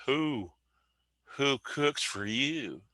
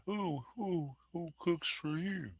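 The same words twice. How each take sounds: First: Slow, hooting owl call, pitched high; mimicking the owl's hoot; barred owl call. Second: Very high, soft hooting owl call; breathy little hoot like a distant owl; softer, higher take on the owl call; barred owl call. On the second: Retold or imitated. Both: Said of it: "Like that".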